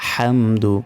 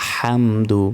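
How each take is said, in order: Both takes have the same delivery.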